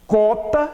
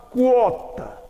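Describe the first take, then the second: First: Cota as "kó-ta", plain k; no w glide in cota; cota without u. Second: Quota as "kwó-ta"; quota with u sounded. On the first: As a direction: say cota with a bare k onset. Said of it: "Cota é diferente". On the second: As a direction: glide through the u in quota. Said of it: "eu digo quota". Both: Shown as a demonstration.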